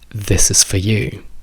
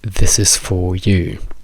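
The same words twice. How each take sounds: First: The word 'for' is reduced to a weak 'fa'. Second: The word 'for' is said with a full vowel. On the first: The speaker calls it right. "come la diciamo noi. For diventa fa" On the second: The speaker calls it wrong. "come la direste voi"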